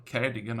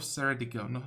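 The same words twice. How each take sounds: First: Ceredigion begun with a hard K sound; first C of Ceredigion hardened to a K; corrected pronunciation. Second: Ceredigion begun with a soft S sound; first C of Ceredigion softened to an S; mistaken pronunciation. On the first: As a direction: say the C of Ceredigion as K, like "Keredigion". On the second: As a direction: say the C of Ceredigion as S, like "Seredigion". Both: Real, not acted. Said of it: "I think that's the pronunciation".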